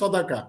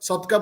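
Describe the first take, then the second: First: The word is said with three syllables. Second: The word is said with two syllables. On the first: This is the correct pronunciation. The speaker calls it right. "শুদ্ধ উচ্চারণটা হচ্ছে সদাকা" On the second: This is how many people commonly say it. The speaker calls it wrong. "আমরা অনেকেই ... সদকা বলে থাকি"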